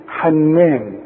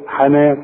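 First: "حنان" with the noon doubled and held; shadda on noon. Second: "حنان" with a single light noon; "حنان" said lightly, n not doubled; no shadda. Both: Shown as a demonstration. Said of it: "بدون شد على النون".

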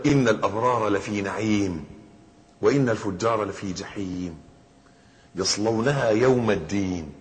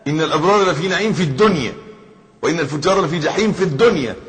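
First: Slow, measured Quranic recitation; verse recitation. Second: Forceful, raised stress on "في الدنيا"; emphatic correction. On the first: Acted. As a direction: recite it slowly, drawing out the phrase endings. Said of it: "في شرح قول الله تعالى". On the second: Shown as a demonstration. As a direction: drive home "في الدنيا" loudly and higher. Corrects the reading: in this world.

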